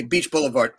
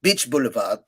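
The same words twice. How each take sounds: First: Said in the usual way. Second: Put-on French-accented English with softened r. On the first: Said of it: "I'd say". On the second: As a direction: imitate a Frenchwoman struggling through English. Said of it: "I have a very good French accent".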